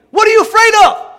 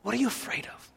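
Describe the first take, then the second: First: Very high, loud demand; exasperated preacher's shout; shouted challenge. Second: Very soft, intimate challenge; quietly probing the listener; hushed question. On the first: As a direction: hurl the question at the crowd. Challenges congregation at peak. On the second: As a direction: let the question drop almost to a murmur. Asks again after the shout. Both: Real, not acted.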